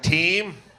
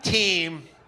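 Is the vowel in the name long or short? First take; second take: long; long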